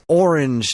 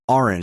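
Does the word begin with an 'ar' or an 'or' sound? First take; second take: or; ar. First: The first vowel sounds like 'or'. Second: The first vowel sounds like 'ar'. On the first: "He's O R A N G E" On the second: "not A R A N G E"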